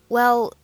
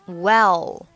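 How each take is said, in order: First: The word is short, quick and blurred. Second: The word is slow and fully pronounced. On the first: The speaker calls it right. "很快速很模糊的well" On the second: The speaker calls it wrong. "不需要读成well"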